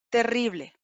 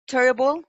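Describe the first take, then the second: First: Spanish terrible, with a trilled r; Spanish pronunciation. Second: Terrible said the English way, TER-uh-bul, stress on the first syllable; English Terrible, ending in -bul; English pronunciation. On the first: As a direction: say terrible in Spanish, te-RRI-ble, ending on a clear -le. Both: Shown as a demonstration. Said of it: "English word then Spanish gloss".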